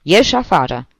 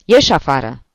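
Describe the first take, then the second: First: Harsh snap. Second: Loud stern order to get out; harsh snap. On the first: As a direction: snap it a second time. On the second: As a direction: bark the order at him. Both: A narrator's reading. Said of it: "se răsti el aspru la Solomon".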